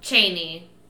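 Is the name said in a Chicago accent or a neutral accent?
neutral. The name is said without a Chicago accent.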